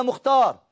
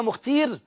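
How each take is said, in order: First: مختار with a long "aa", mukh-TAAR; correct word form. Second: مختير with a long "ee", mukh-TEER; nonexistent word form. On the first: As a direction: say مختار as mukhtaar. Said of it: "احنا عندنا مختار". (مختار بألف ممدودة) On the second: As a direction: say مختير as the made-up mukhteer. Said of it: "ما قلناش خالص". (مختير بياء ممدودة بدل الألف) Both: Shown as a demonstration.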